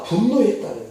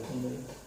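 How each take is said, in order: First: 분노했다 said louder, falling hard; stressed word. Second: 분노했다 repeated much softer, lower; quiet repeat. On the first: Preacher stresses 분노했다 to the congregation, loud falling stress. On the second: Preacher echoes 분노했다 to himself, soft and low. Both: Shown as a demonstration. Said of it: "그 노했다".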